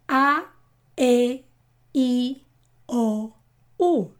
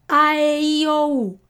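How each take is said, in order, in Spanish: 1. Las vocales se dicen más rápido otra vez. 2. Las vocales se dicen a su máxima velocidad. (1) "Y ahora un poco más rápido" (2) "Y más rápido"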